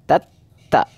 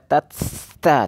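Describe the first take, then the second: First: The doubled t is held tight without breath. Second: The first t is released with flowing breath. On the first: The speaker calls it right. "langsung syiddah saja tatta" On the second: The speaker calls it wrong. "tidak bisa dibaca tatta"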